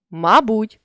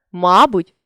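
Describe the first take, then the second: First: Мабуть with final БУТЬ stressed; stress on last syllable. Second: Мабуть with МА stressed; stress on first syllable. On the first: Teacher shows a stress variant, мабуть stressed on БУТЬ. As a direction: land on БУТЬ ending мабуть. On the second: Teacher shows a stress variant, мабуть stressed on МА. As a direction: punch the opening МА of мабуть. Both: Shown as a demonstration. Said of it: "наголосивши той чи інший склад".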